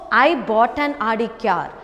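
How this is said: The stress is on "I".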